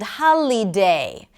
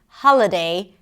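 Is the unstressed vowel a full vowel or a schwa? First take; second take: full vowel; schwa. First: The unstressed vowel is a full vowel. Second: The unstressed vowel is reduced to schwa. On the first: The speaker calls it wrong. "they pronounce the vowel sound that is associated with a vowel letter" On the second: The speaker calls it right. "All had the same sound, the schwa sound"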